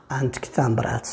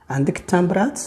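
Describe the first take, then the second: First: Said in the usual way. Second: "تامبرات" lifted at the end, asking; higher voice, rising on "تامبرات"; question intonation. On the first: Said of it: "أن الأولى كان خبر". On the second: Shown as a demonstration. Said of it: "غيرت فقط طريقة الصوت". (نبرة سؤال، الصوت طالع في "تامبرات")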